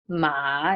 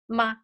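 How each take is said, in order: First: The pitch dips low then rises. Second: The syllable is short and light, toneless. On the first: It means horse. "It's low falling rising" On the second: It is a question particle. "it doesn't have a tone"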